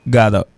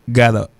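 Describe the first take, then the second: Both takes have the same delivery.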